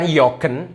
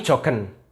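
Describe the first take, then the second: First: The word begins with a y sound. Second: The word begins with a j sound. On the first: The speaker calls it wrong. "Ini bukan yogen" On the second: The speaker calls it right. "tapi jogen"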